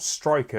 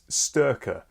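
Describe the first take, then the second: First: The first syllable sounds like 'stry'. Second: The first syllable sounds like 'stur'. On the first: The speaker calls it wrong. "I've been pronouncing it wrong the entire time. It's not Striker" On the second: The speaker calls it right. "it's Sturker"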